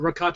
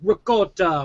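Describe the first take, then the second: First: It is said with a plain English pronunciation. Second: It is said with an Italian-style pronunciation.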